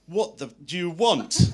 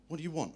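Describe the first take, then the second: First: Loud, high, slowed-down angry demand; exasperated shout. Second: Higher-pitched retort, not yet shouting; mildly impatient question. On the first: Stewardess turns round on the man at the bar, exasperated shout. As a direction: act out her losing patience, much louder and drawn out. Stewardess snaps after failed guesses. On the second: Stewardess to the man chatting her up, mildly impatient. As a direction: voice the stewardess asking, raised in pitch only. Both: Retold or imitated.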